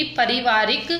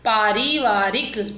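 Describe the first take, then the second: First: पारिवारिक with short first "pa"; wrong short vowel. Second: पारिवारिक slowly, with long "paa"; correct long vowel. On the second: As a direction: stretch the first vowel of पारिवारिक. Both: Shown as a demonstration. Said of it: "मात्रा संबंधी अशुद्ध शब्द".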